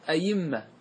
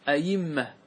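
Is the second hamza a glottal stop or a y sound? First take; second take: y sound; y sound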